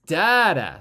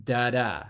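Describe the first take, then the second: First: "Da-da" hit hard on the first syllable, loud; strong then weak, DA-da; trochee da-da. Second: "da-da" with the second syllable stressed; iambic da-da. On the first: Teacher demonstrates the trochee beat, punched first. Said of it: "stressed and then unstressed". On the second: Teacher demonstrates the iambic beat, light then stressed. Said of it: "unstressed and then stressed". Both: Shown as a demonstration.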